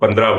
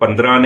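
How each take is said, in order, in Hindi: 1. शब्द नासिक्य ध्वनि के बिना खत्म होता है। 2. शब्द नासिक्य ध्वनि पर खत्म होता है। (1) "उसको पंद्रह बोलना है" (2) "इन पे आखिर में नून वून आपने नहीं लगाना, उसको पंद्रह नहीं बोलना"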